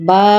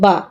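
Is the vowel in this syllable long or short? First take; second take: long; short. First: The vowel is drawn out long. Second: The vowel is cut short quickly. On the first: "জবরের বাম পাশে খালি আলিফ আছে" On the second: "আলিফটা না থাকলে কিন্তু ঠিক এরকমের উচ্চারণ হতো"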